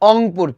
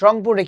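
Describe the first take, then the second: First: The word begins with a vowel sound. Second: The word begins with an r sound.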